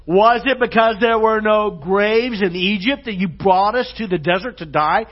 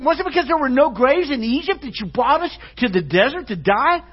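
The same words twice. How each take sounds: First: Loud, raised sarcastic quote; big-time sarcasm. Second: High, loud, mocking sarcastic complaint; big-time sarcasm. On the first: Acted. Israelites complaining to Moses at the sea, loudly sarcastic. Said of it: "this is like big-time sarcasm". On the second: Israelites blaming Moses for the desert, exaggerated high sarcasm. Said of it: "big-time sarcasm".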